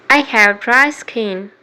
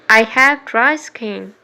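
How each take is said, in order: Both takes have the same delivery.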